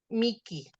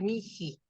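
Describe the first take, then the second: First: The middle consonant is a hard k sound. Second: The middle consonant is a breathy h sound.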